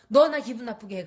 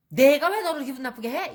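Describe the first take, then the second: First: Loud accusing jab at 너; blaming accusation. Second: Higher, louder indignant comeback rising on 왜; defensive retort. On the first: Shown as a demonstration. Demo of the wrong way to tell someone you're upset, loud blaming. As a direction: point the finger with 너 stressed. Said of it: "하지만". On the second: Retold or imitated. The accused person firing back at a blaming remark, indignant and defensive. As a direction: snap back defensively, stressing 왜. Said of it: "이렇게 나오는 거죠".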